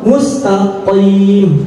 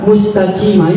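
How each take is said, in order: First: The q sounds heavy and deep in the throat. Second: The q sounds light, like a plain k. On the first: The speaker calls it right. "Yang benar tafkhim tebal" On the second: The speaker calls it wrong. "jangan seperti kaf mustaqimah, ini salah"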